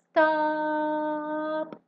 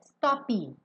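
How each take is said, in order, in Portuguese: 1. A palavra termina de repente no p. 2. Um som de vogal extra vem depois do p final. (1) "o P corta" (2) "O que, que você não pode fazer? Stop. Porque não tem esse I depois do P"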